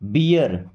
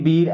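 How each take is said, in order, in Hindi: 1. अंत 'ee-ar' की तरह बोला जाता है, यानी दो स्वर-ध्वनियाँ। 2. अंत एक ही 'eer' ध्वनि की तरह बोला जाता है। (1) "ईयर लगाना है" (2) "चीर फिर बीर ऐसा नहीं पढ़ना है"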